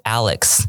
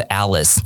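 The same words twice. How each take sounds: First: "Alex" ending in a clear "ks". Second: "Alice" ending in a plain "s"; Alice without K. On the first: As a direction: sound the K before the final S of "Alex". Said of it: "其实差一点点". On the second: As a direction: end "Alice" on "-iss", no K sound. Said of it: "我会觉得在念的是Alice". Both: Shown as a demonstration.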